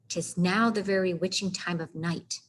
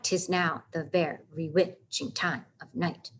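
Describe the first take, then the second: First: The line flows with natural speech stress. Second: Every second syllable is stressed with a heavy beat.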